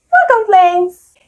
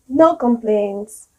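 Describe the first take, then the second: First: High, loud, drawn-out NO COMPLAINTS; super positive. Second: Flat, dragged-out NO COMPLAINTS; complaining tone. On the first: Teacher showing an upbeat reply to "how are you", super positive. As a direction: sing out your optimism on every syllable. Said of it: "someone who is super positive and optimistic". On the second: Teacher showing how intonation can contradict the words, slow and complaining. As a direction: say it as if you have plenty of complaints. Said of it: "sound like you have a lot of complaints". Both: Shown as a demonstration.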